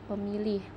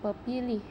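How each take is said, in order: First: The middle consonant is an m sound. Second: The middle consonant is a p sound. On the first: The speaker calls it right. "tetapi dibaca dengan pemilih" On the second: The speaker calls it wrong. "tidak dibaca dengan pepilih"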